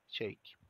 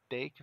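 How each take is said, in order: First: The T at the start has an extra burst. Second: The T at the start is plain and soft. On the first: The speaker calls it right. "fazemos o charme na letrinha T" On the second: The speaker calls it wrong. "Ao invés de falar take"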